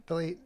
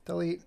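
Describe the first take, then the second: No difference in how they are said.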